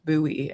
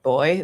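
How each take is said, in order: First: It is said differently from the word 'boy'. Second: It is said exactly like the word 'boy'. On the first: This is how the speaker always knew the word. "which I always knew as buoy" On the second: This is how the audiobook reader said the word. "he pronounced it boy"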